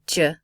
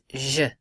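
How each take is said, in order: First: The J has the English 'dj' sound. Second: The J has the soft French 'zh' sound. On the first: The speaker calls it wrong. "It doesn't say J" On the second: The speaker calls it right. "it says J in French"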